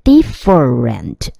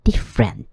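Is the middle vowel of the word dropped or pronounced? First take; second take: pronounced; dropped. First: The middle vowel is pronounced as a full syllable. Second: The middle vowel is dropped, F joins R. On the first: The speaker calls it wrong. "很多同学会念成different 或是different 都不对哦" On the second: The speaker calls it right. "中间的那个E 会被省略，所以F 跟R 就直接合起来"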